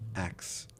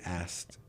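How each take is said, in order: First: It ends with a 'ks' sound, like 'axe'. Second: It ends with a clear 'skt' sound. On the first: The speaker calls it wrong. "What did I say? Axe" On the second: The speaker calls it right. "I think you mean asked"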